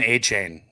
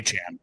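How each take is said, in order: First: The last syllable sounds like 'chain'. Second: The last syllable sounds like 'chan'. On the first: The speaker calls it wrong. "always said Achane" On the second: The speaker calls it right. "Achan's how you say it"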